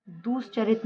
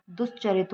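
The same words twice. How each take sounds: First: "दुश्चरित" with drawn-out "doos"; wrong long u. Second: "दुश्चरित" with short "dus"; correct short u. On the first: Teacher shows the mistake, long-u "दुश्चरित". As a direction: stretch दु in "दुश्चरित". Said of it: "ना होके". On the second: Teacher gives the correction, short-u "दुश्चरित". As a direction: keep दु quick in "दुश्चरित". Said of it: "दुश्चरित होता है". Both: Shown as a demonstration.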